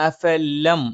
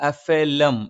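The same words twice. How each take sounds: No difference in how they are said.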